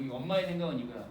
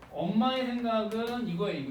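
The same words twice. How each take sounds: First: 엄마의 stressed, low and fast; quick stress on 엄마의. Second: 엄마의 leaned on, falling; stress on 엄마의. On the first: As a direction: rush through, keep 엄마의 marked. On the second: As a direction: hit 엄마의 clearly. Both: Shown as a demonstration. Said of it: "repeated 엄마의".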